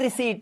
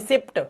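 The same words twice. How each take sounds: First: The word is said with no p sound. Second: The word is said with a p sound. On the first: The speaker calls it right. "keep your p silent always. Say receipt, only receipt" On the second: The speaker calls it wrong. "ना कि receipt, पा नहीं बोलना है"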